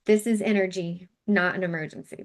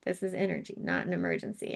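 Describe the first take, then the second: First: Said in the usual way. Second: Quiet mantra. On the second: Shown as a demonstration. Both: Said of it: "If you wanna use that just with your tapping".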